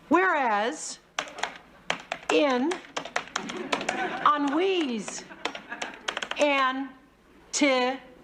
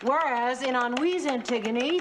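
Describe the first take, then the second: First: It is read very slowly. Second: It is read very fast.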